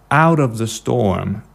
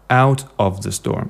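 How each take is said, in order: First: The T is a soft D, words joined. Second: The T is a clear T, words separate. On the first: The speaker calls it right. "make the T more like a soft D" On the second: The speaker calls it wrong. "instead of"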